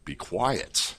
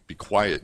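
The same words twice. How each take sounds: First: Said in the usual way. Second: Lightly voiced stern rebuke; understated stern order to the spirit; a hint of stern Jesus. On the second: A narrator's reading. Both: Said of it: "Jesus said sternly".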